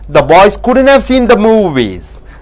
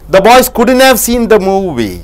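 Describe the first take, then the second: No difference in how they are said.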